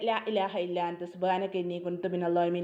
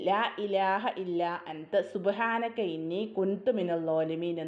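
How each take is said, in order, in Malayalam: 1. ഈ വാക്യം വേഗത്തിലും അശ്രദ്ധയോടെയും ചൊല്ലുന്നു. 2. ഈ വാക്യം പതുക്കെ, ഓരോ അക്ഷരവും വ്യക്തമായി ചൊല്ലുന്നു. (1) "അങ്ങനെയല്ല" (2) "ഓരോ അക്ഷരവും നല്ല രീതിയിൽ"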